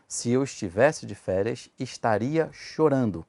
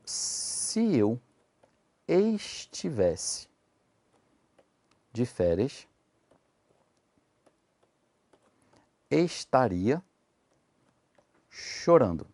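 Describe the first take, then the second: First: Said in the usual way. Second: Very slow, word by word with long pauses; slow dictation. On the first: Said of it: "Neguem pra mim essa frase". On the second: Shown as a demonstration. Teacher dictates the example sentence to students, very slowly. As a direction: spell the sentence out slowly, one word at a time. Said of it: "se eu falasse assim, ó".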